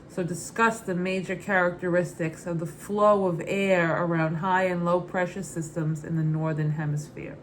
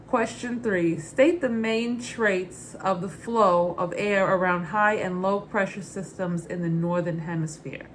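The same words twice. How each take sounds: First: Said in the usual way. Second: Put-on Brooklyn accent. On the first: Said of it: "the answer in my normal speaking voice". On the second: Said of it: "read the question in my Muddets Berry Brooklyn accent".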